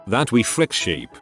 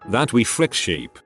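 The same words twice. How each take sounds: The two takes are said the same way.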